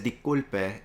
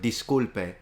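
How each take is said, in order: First: The S sound is left out. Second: The S sound is clearly pronounced. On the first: "even if he says disculpe" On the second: "instead of disculpe"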